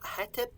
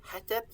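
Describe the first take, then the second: First: The word is said with 'e' vowels, heh-tep. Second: The word is said with 'e' vowels, heh-tep.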